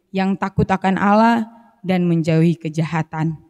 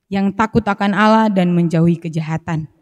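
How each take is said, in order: No difference in how they are said.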